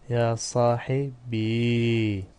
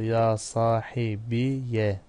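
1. Kelime uzun ve sakin bir i ile biter. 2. Kelime i ve ardından gelen -ya ile biter. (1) "Mütekellim yası sakindir" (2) "Fethalı okunması"

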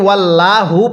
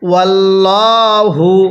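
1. L উচ্চারণটি চিকন ও হালকা। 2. L উচ্চারণটি ভারী ও মোটা।

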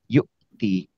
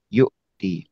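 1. Ada hentian glotal ringan sebelum 'ti'. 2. Ada hentian glotal ringan sebelum 'ti'.

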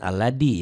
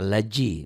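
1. Konsonan setelah L adalah bunyi th yang lembut. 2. Konsonan setelah L adalah bunyi j. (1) "jangan alladhi ya" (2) "Jangan allaji"

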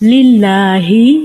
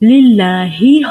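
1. Allah শব্দে L হালকা ও পাতলা। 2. Allah শব্দে L হালকা ও পাতলা।

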